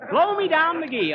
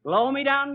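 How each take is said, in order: First: Laughing. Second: Said in the usual way. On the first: Real, not acted. Says nickname laughing. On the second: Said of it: "I was known as in them days".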